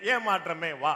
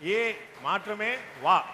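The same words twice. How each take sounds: First: The phrase runs together without a pause. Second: The phrase is broken by a pause. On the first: The speaker calls it wrong. "நீங்க சேர்த்து சொல்லிடுறீங்க" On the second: The speaker calls it right. "அவங்க ஒரு ஒரு pass விட்டு சொல்றாங்க"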